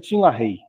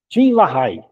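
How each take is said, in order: First: The name is said the English way. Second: The name is read as it is spelled. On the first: "mas pronuncia"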